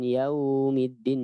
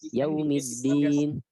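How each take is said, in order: First: The vowel in yaum is drawn out long. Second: The vowel in yaum is kept short. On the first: The speaker calls it wrong. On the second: The speaker calls it right.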